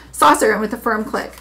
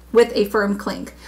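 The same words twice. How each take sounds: First: "click" said with a plain k ending; "firm click" ending hard on k, the misread word. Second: "clink" said with a nasal ng before the k, slower; slow down and land "clink" with the ng sound; corrected clink. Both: Shown as a demonstration.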